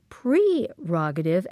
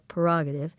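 First: The first syllable is said as 'pre'. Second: The first syllable is said as 'per'. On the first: "you say it's actually prerogative" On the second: "we just kind of smush it into P-E-R"

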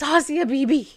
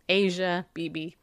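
First: The first name sounds like 'Ossia'. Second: The first name sounds like 'Asia'. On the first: The speaker calls it right. "it's Ossia Beebe" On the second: The speaker calls it wrong. "Janet Parshall proudly said"

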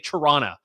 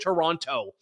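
First: The second T is dropped. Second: The second T is clearly pronounced. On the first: The speaker calls it right. "I never pronounce the second T" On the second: The speaker calls it wrong. "I did the Toronto"

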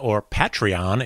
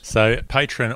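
First: It is said in an American accent. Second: It is said in an Australian accent.

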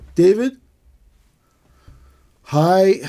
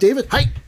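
First: There is a long pause before hi. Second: Hi follows David almost immediately.

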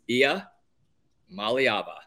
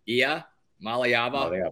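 First: The name is said slowly with a pause inside. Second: The name is said quickly without any pause. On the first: "if you just put a little pause in it" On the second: "and then just kind of speed it up"

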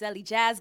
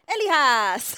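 First: The name is said as 'Ellie Jazz'. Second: The name is not said as 'Ellie Jazz'. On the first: This is the speaker's real name. The speaker calls it right. "it's Ellie Jazz, guys" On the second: This is how the introducers said it. The speaker calls it wrong. "they mispronounced your name"

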